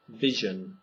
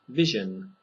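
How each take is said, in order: Both takes have the same delivery.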